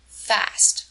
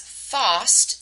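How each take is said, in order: First: The vowel is a flat American a sound. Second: The vowel is a broad British ah sound. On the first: The speaker calls it right. "instead of the American fast" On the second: The speaker calls it wrong. "which she pronounces as fast"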